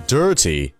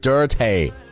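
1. 最后一个音节以长元音 'ee' 结尾。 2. 最后一个音节以 'ay' 元音结尾。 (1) "字母y 的发音为长元音的e ... 而是dirty" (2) "很多中国人会读成tay ... 所以说脏的不是dirty"

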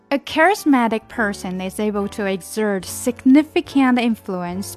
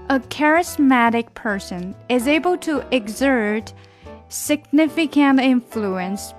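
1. 这句话读得快一些。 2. 这句话读得慢一些。

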